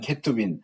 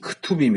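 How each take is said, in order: First: The first syllable has a full 'e' vowel. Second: The first vowel is reduced to a weak sound. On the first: "저는 케투빔 쉐와를 발음해서" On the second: "쉐와 발음을 안 하기 때문에"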